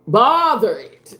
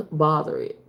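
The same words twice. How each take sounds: First: Slow, loud, drawn-out preaching; preacher voice. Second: Said in the usual way. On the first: Shown as a demonstration. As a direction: belt it out like a pastor. Repeated phrase, plain then preached.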